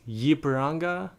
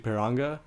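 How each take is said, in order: First: The name begins with a 'y' sound. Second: The name begins without a 'y' sound. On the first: "the way you say this team's name is Yipiranga" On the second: "maybe the Y could be silent"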